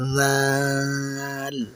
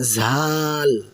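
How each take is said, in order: First: The word starts with a soft, airy sound. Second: The word starts with an aspirated 'jh' sound. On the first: The speaker calls it right. "খুব নরম করে বাতাস ছাড়ার মতো করে বলবেন" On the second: The speaker calls it wrong. "এটি কিন্তু ঝাল বা জাল নয়"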